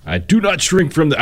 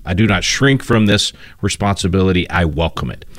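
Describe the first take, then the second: First: Put-on a half-hearted stab at a Massachusetts accent, pitched up; brief, abandoned Massachusetts accent attempt; failed Massachusetts accent. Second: Said in the usual way. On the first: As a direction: start a Kennedy Massachusetts accent, then give up. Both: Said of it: "I can't do a, do a Massachusetts accent".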